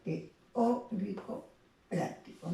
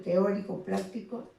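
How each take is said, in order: First: Slow "teórico práctico", broken around the stressed Ó; "teórico práctico" in slow, separated teaching pieces; syllable stress shown. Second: Said in the usual way. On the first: Shown as a demonstration. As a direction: draw out "teórico práctico" as te-Ó-rico, PRÁC-tico. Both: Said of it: "el mayor énfasis o tono".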